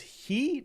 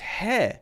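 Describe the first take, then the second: First: The vowel is a long E sound. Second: The vowel is a short E sound. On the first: The speaker calls it wrong. "is that pronounced as he? No" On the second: The speaker calls it right. "Short E sound"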